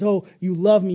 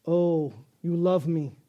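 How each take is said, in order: First: Louder, adoring "Oh, you love me"; eager dog. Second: Cat voice. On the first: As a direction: gush it like a happy dog. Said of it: "the dog says". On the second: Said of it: "Cat says". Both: Pretend.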